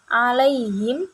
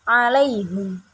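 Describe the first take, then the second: First: The last syllable has an i vowel. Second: The last syllable has a u vowel.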